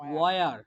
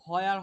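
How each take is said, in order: First: The word begins with a plain w sound. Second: The word begins with an h sound. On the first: The speaker calls it right. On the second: The speaker calls it wrong. "পরেরটা কিন্তু হয়ার হবে না"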